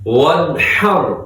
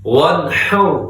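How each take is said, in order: The two takes are said the same way.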